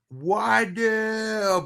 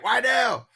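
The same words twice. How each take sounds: First: It is said very slowly, drawn out. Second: It is said very fast, sped up.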